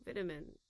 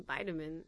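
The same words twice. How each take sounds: First: British vitamin with a short first i; vitamin opening like "vit" in "vitality"; British pronunciation. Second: American vitamin with a long eye; vitamin opening like the word "vie"; American pronunciation. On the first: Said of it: "I'm like, No, vitamin". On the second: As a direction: say vitamin as VY-tamin. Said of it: "and they're like". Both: Retold or imitated.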